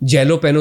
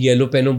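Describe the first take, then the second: First: The word begins with a J sound. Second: The word begins with a Y sound. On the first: "जे को जे नहीं बोल सकते" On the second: "येलो पेनो बोलते हैं"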